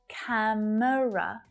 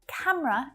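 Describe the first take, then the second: First: The word is said with three syllables. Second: The word is said with two syllables. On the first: The speaker calls it wrong. "Many of my students will say camera" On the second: The speaker calls it right. "camera is definitely much more natural"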